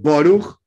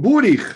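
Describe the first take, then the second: First: It is said in a Russian Ashkenazi pronunciation. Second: It is said in a Hungarian Ashkenazi pronunciation.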